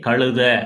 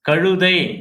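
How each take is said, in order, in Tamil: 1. சொல் குறுகிய 'a' ஒலியில் முடிகிறது. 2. சொல் 'ai' ஒலியில் முடிகிறது.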